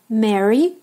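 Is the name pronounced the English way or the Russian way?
English. The name is said with English pronunciation. "listen to my pronunciation both in English and in Russian"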